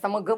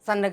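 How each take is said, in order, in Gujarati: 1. 'gh' પહેલાંનો અનુનાસિક m જેવો સંભળાય છે. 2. 'gh' પહેલાંનો અનુનાસિક n જેવો સંભળાય છે. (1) "સમઘ બોલો ને" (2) "સનઘ બોલો ને એવું નથી બોલતા"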